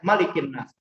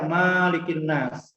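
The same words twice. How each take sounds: First: The first vowel of malik is short. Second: The first vowel of malik is long. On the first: This is the widely known reading. "tidak panjang ya" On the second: Some others read it this way. "Ada juga yang baca"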